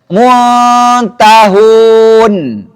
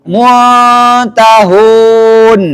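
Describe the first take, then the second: The two takes are said the same way.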